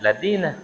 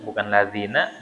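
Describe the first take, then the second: First: "ladina" with hard d for dh; mock mistaken "ladina"; dzal as dal. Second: "ladzina" with a th-like dh; soft dh in "ladzina"; proper "ladzina"; correct dzal. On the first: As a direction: swap dh for d: "ladina". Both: Shown as a demonstration. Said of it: "Alladzina dibaca alladina".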